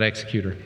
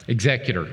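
First: The stress is on the first syllable. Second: The stress is on the second syllable. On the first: A different word that only looks similar. The speaker calls it wrong. "not executor. Different word, looks similar" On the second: A person who carries out a will. The speaker calls it right. "Executor, not executor"

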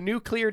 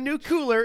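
First: The word is said as nu-clear. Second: The word is said as nu-cu-lar. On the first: The speaker calls it right. "It's a new clear day" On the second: The speaker calls it wrong. "Not a new cooler"

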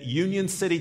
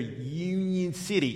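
First: It is said in the speaker's normal accent. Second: It is said in a local Tennessee accent.

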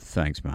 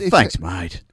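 First: It is said in a sarcastic, mocking tone. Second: It is said in a warm, friendly tone. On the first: The speaker is not really grateful. "it could be sarcastic" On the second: The speaker is genuinely grateful. "You know, that's nice"

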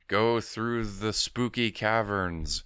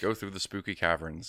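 First: It is said in a put-on spooky voice. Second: It is said in a plain, normal voice. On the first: The character plays up the eerie setting. "He's not even doing a voice like" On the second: The character just states the instruction. "he's just there talking normally"

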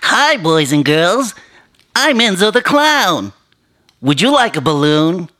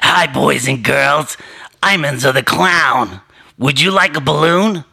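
First: A bright, playful clown voice. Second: A sinister clown voice with a New York accent. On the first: It is an ordinary children's party clown. "That's my regular clown voice" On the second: It is a horror-movie killer clown. "like a Rob Zombie movie, I would do a different voice"

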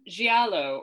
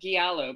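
First: It is said with an Italian-style pronunciation. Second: It is said with an American pronunciation.

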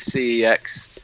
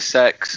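First: The name is spelled out letter by letter. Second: The name sounds like the word sex. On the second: "There's like 50 different pronunciations you hear all the time. It's either sex"

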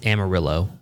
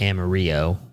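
First: The name is pronounced with English sounds. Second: The name is pronounced with Spanish sounds. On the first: This is how the locals say it. "They were like, it's Amarillo" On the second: This is how the speaker first said it. "That happened when I said that we had stayed in Amarillo"

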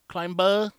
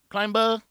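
First: The B sound is clearly and strongly pronounced. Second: The same.

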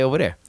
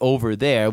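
First: It is said in a local regional accent. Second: It is said in a plain standard accent. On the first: "we say over there" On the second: "instead of just going out with it over there"

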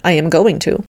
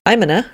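First: Each word is said fully and clearly separated. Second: The words run together in a shortened, reduced form. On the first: The speaker calls it right. "rather than" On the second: The speaker calls it wrong. "I catch myself saying"

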